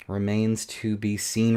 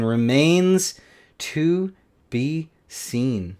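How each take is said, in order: First: Said in the usual way. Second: Very slow, each word stretched; drawn-out musing. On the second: Real, not acted. Repeats it drawn out.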